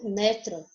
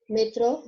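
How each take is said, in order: First: Metro with the stress on ME. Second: Metrô with the stress on TRÔ. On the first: Teacher gives the Spanish take, stress on ME in metro. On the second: Teacher gives the Portuguese take, stress on TRÔ in Metrô. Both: Shown as a demonstration. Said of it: "só muda a sílaba tônica".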